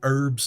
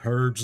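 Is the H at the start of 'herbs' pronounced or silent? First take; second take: silent; pronounced. First: The word begins without any H sound. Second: The word begins with an audible H sound. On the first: The speaker calls it right. "we need to ditch that H" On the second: The speaker calls it wrong. "I pronounced the H"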